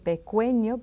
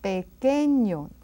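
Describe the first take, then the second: First: A u sound is heard after the k. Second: No u sound is heard after the k. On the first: The speaker calls it wrong. "You don't hear that U, right? We don't say pequeño" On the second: The speaker calls it right. "but pequeño"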